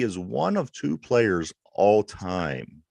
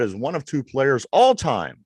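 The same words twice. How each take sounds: First: The phrase is spoken at a slower pace. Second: The phrase is spoken at a normal pace.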